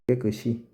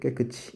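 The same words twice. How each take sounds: First: The s sound carries over into the final syllable. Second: The s sound is not carried into the final syllable. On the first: The speaker calls it right. "표준 발음 깨끗이" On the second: The speaker calls it wrong. "이게 아니, 표준 발음 이게 아니에요"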